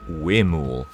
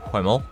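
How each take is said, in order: First: The word begins with a plain w sound. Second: The word begins with an audible h sound. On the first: The speaker calls it right. "it's actually pronounced Wemul" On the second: The speaker calls it wrong. "previously, I've referred to this area as being for the Hwemel"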